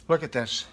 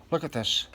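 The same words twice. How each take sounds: The two takes are said the same way.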